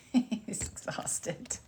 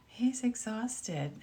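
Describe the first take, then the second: First: Very slow, breathy whisper through a laugh. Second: Said in the usual way. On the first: Real, not acted. Laughing remark about her tired dog.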